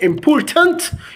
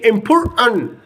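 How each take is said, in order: First: The T sounds are clearly pronounced. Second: The T sounds are dropped. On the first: "instead of saying important" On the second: "We didn't pronounce the last T at the end"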